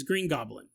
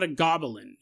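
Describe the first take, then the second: First: "Green Goblin" ending in two-syllable GOB-lin; low, falling "Green GOB-lin"; proper-name pronunciation. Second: "goblin" as three syllables, GOB-uh-lin; common-noun pronunciation. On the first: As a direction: drop the extra vowel from "Goblin". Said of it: "that's a proper name". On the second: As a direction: add an "uh" inside "goblin". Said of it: "I say it differently". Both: Retold or imitated.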